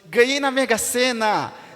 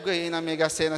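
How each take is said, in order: First: It is said with raised, excited, surprised voice. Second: It is said flatly, without any emotion. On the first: The speaker feels surprise and emotion. "é de surpresa" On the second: The speaker expresses no feeling. "sem emoção"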